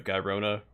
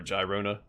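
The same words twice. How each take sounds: First: Gyrona with a hard G, as in "guy"; first sound of Gyrona is a hard g. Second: Gyrona with a soft G, like a J; first sound of Gyrona is a j. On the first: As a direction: say Gyrona starting "guy-ROH-na". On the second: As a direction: say Gyrona starting "jai-ROH-na". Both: Shown as a demonstration. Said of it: "not sure how it's pronounced".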